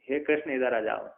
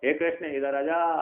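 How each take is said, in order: First: The call is said plainly with short vowels. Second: The call has somewhat drawn-out vowels. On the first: The person being called is nearby. "नजदीक को बुलाने पर" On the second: The person being called is a little far away. "दूर का बुलाना है तो थोड़ी दूर पे हो"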